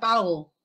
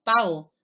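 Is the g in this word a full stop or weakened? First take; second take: weakened; weakened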